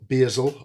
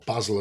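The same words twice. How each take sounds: First: It is said with an American pronunciation. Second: It is said with a British pronunciation.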